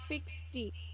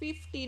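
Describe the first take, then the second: First: The word has an added ks sound in it. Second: The word has a plain f sound, no ks. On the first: The speaker calls it wrong. "not fifty. Where is the X coming from?" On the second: The speaker calls it right. "It should be pronounced fifty"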